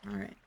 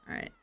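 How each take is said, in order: No difference in how they are said.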